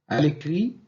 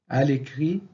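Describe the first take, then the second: The two takes are said the same way.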